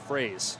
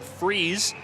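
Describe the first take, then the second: First: The vowel is a long 'ay' sound. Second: The vowel is a long 'ee' sound. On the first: The speaker calls it right. "it's a long A sound" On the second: The speaker calls it wrong. "I said freeze"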